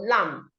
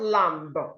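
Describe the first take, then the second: First: No b sound is pronounced at the end. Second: A b sound is pronounced at the end. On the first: The speaker calls it right. "The B is silent, so you go lamb" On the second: The speaker calls it wrong. "not lamb"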